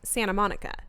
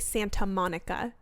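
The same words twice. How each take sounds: First: The T in Santa is dropped. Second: The T in Santa is clearly pronounced. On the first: "the S and the T's ... T's don't happen" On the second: "You don't say Santa Monica"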